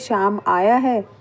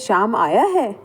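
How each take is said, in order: First: It is said in a neutral, matter-of-fact tone. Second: It is said with a surprised tone. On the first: It simply gives information. "अगर हम normal इस sentence को बोलते हैं" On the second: The arrival is unexpected. "आश्चर्य का भाव है।"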